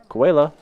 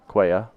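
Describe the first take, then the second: First: The double L is said as an L sound. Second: The double L is said as a Y sound. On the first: The speaker calls it wrong. "I know that's not right. It can't be koala" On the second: The speaker calls it right. "That sounds better when I say it like that"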